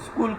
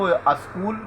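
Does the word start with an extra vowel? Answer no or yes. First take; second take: no; yes. First: The word begins directly with the s sound. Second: The word begins with an added vowel before s. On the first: The speaker calls it right. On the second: The speaker calls it wrong.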